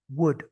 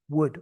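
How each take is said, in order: The two takes are said the same way.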